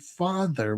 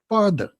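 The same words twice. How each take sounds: First: The middle consonant is a th sound. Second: The middle consonant is a d sound. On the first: This is the standard pronunciation. "We would not say father" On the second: This is how it was said in the Bronx. "We would say mother, father. we always used to pronounce T H words with has a D"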